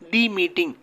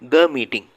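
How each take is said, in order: First: 'The' is said with a long 'ee' vowel. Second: 'The' is said with a short 'uh' vowel. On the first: The speaker calls it wrong. "தி meeting அப்படின்னு சொல்லக்கூடாது" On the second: The speaker calls it right. "த meeting அப்படின்னு சொல்கிறோம்"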